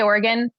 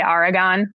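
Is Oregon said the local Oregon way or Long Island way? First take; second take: Oregon local; Long Island. First: It is said the local Oregon way. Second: It is said with a Long Island accent.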